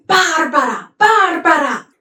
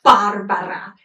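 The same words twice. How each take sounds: First: "Barbara" flung out twice, higher and louder; accusing cry. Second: Said in the usual way. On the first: Retold or imitated. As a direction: hurl "Barbara" at the cruel woman. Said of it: "He's like". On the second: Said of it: "I like the Italian word that's used here".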